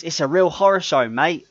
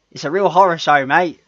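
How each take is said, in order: First: Put-on a touch of English accent, a bit higher and louder; imitating an English accent, lightly; playful mock English accent. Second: Hammed-up English accent, higher and louder; cheeky mock English accent. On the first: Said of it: "that's how he said it". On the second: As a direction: imitate a bad English accent. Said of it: "He tried to do the English accent".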